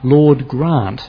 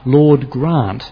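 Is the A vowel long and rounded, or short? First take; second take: long; long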